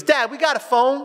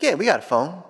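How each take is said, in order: First: Put-on high, rising kid's question; child asking Dad. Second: Dad's matter-of-fact falling answer. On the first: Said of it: "He comes up to me, he goes". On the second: Retold or imitated. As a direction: answer the kid, pitch dropping at the end.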